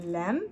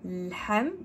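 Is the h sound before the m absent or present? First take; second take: absent; present. First: No h sound comes before the m. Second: A breathy h sound comes before the m. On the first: The speaker calls it wrong. "parce que sinon ça fait lam" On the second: The speaker calls it right. "on rappelle toujours le mot ha"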